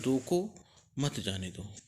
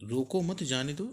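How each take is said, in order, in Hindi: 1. विराम शब्द 'roko' के बाद आता है। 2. विराम शब्द 'mat' के बाद आता है। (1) "अर्थात रोक लो, इसे नहीं जाने दो" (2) "अर्थात रोकना नहीं, जाने देना"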